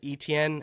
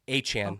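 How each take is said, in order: First: The name is pronounced like Etienne. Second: The name is pronounced like Achan. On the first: This is how people outside Louisiana say it. "as we would say like up here in you know Ohio" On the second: This is how people in New Orleans say it. "that's how you would actually say it in their dialect"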